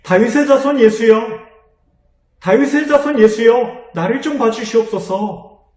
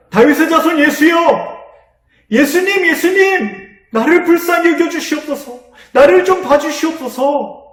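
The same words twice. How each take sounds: First: Higher, louder desperate calling out; a blind beggar calling out to Jesus, urgent and loud; urgent cry. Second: Much higher, louder desperate shouting; the blind man crying out again over the crowd, desperate and loud. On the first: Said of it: "다급하게 부르짖었습니다". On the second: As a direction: shout it out with everything you have. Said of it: "더 큰 소리로 외쳤어요". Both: Acted.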